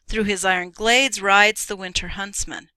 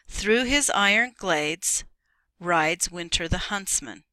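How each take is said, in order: First: It is read straight through without pausing. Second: It is read with a pause partway through. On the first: The phrase continues into the next line. The speaker calls it right. "So this is how it reads" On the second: The line seems to end a sentence there. The speaker calls it wrong. "here's what it would sound like if it had a period or a comma. Let's put a comma"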